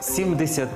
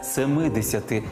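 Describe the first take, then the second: First: The first part keeps its base form. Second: The first part takes a case ending. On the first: The speaker calls it right. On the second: The speaker calls it wrong.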